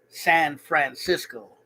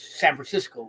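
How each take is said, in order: First: The words are said separately and clearly. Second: The words are run together as one. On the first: "We don't say San Francisco" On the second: "we say words together"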